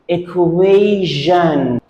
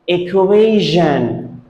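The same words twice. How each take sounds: First: The middle consonant sounds like 'zh'. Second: The middle consonant sounds like 'zh'.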